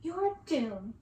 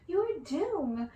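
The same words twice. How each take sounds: First: Gleeful taunt. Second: Louder, higher gleeful chant. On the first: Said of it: "laughing, while she clapped". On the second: Sisters to the prince, gleeful chant. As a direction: chant it with mean delight. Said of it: "with absolute glee". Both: Acted.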